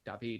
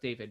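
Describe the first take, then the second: First: The name is said with a French pronunciation. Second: The name is said with an English pronunciation. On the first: The name fits into a French sentence. "when they talked about me in French, they would say David" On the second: The name sounds like one English word. "instead of David"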